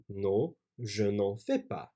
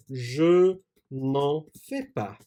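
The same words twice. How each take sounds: First: Said in the usual way. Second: Slow dictation. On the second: Shown as a demonstration.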